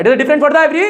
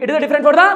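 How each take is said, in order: First: Said with feeling. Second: Said in the usual way. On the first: Shown as a demonstration. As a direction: put real feeling into it this time. (जोश और फील के साथ ज़ोर से बोलना) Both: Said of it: "बे यार फील नहीं आया".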